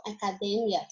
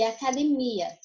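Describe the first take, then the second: First: Academia with the stress on DE. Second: Academia with the stress on the MI. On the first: Teacher shows students the Spanish word, stress on DE in academia. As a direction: say academia as acaDEmia, falling after DE. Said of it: "Em espanhol". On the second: Teacher shows students the Portuguese word, stress on MI in academia. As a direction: say academia leaning on the next-to-last vowel, the I. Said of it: "em português". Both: Shown as a demonstration.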